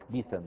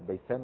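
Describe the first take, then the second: First: The first vowel is an 'i' sound. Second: The first vowel is an 'a' sound.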